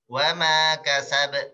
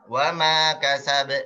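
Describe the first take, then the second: No difference in how they are said.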